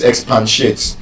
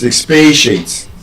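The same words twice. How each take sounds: First: Expatiate said as ex-PAN-shate; mispronunciation. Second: Expatiate said as ex-PAY-shate; correct pronunciation. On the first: Teacher quotes a wrong request, mispronunciation. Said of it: "You don't say". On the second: Teacher corrects the request, proper pronunciation. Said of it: "It's expatiate". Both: Shown as a demonstration.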